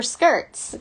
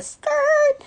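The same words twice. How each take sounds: First: Said in the usual way. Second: "skirt" as a long, high held "skrrrt"; drawn-out "skrrt". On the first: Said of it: "for skirts". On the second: Retold or imitated. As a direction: stretch the middle of "skirt" into a high tire-screech sound. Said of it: "people might do the".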